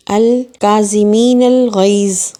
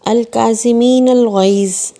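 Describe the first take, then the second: First: الغیظ drawn out and stressed, very slow and loud; slow Quranic recital with weight on الغیظ; slow recitation, last word stressed. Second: الکاظمین drawn out and stressed, very slow and loud; slow Quranic recital with weight on الکاظمین; slow recitation, first word stressed. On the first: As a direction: recite slowly, leaning on الغیظ. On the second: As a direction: recite slowly, leaning on الکاظمین. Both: Shown as a demonstration. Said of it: "سورہ آل عمران کی آیت".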